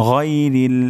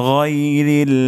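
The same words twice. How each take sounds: No difference in how they are said.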